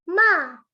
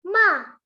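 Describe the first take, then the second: No difference in how they are said.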